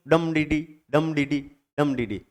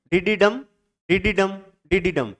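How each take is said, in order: First: डम DD with a weighted डम, then two light beats; stress on first syllable. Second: DD डम with two light beats, then a weighted डम; stress on final syllable. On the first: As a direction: chant डम DD as strong-short-short feet, dropping lower. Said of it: "या फिर आप कर दो". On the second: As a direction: chant DD डम as short-short-strong feet. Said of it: "पहले दो syllable अनिश्चेष station". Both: Shown as a demonstration.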